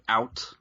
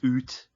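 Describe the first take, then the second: First: The vowel is the ordinary 'ow' sound. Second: The vowel is a long 'oo' sound. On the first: "she never said the word out ever" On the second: "It was always oot"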